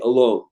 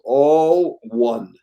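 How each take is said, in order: First: It is said as one run-together word. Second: It is said as two separate words. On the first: Being by yourself. The speaker calls it wrong. "It's usually mispronounced as A L O N E" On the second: Everyone is united as one. The speaker calls it right. "the word is all one"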